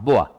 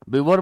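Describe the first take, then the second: First: It ends in a vowel, like 'bo-ah'. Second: It ends in an 'r', like 'bi-vor'. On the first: The speaker calls it right. "इसको प्रोनाउंस करेंगे बोआ" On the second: The speaker calls it wrong. "बिवोर मत बोल देना"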